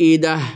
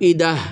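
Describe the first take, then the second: Both takes have the same delivery.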